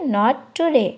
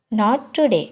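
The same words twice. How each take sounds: The two takes are said the same way.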